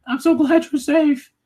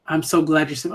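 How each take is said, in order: First: Mock crying retainer. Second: Said in the usual way. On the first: Mocking the retainer's tearful words to his king, high and slow. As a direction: parody his tearful relief. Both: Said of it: "look at him crying".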